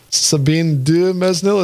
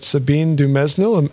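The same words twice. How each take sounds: First: The name is said with strong emphasis. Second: The name is said with light emphasis. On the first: "I should put a little more emphasis on the Sabine Dumesnil" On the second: "I'm saying this right"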